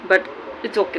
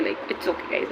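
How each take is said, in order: First: Said in the usual way. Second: Soft whispered aside, trailing up; whispered reassurance. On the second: Real, not acted. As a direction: breathe it out like a secret to yourself. Self-reassuring aside about her look.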